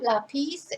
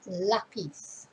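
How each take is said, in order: First: The stress is on the second syllable. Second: The stress is on the first syllable. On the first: The speaker calls it wrong. "So it's not lápiz" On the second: The speaker calls it right. "The stress is on the first syllable"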